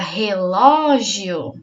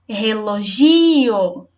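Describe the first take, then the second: First: The stress is on the second syllable. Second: The stress is on the third syllable. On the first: "Se for o lo, fica" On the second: "Se for o gi"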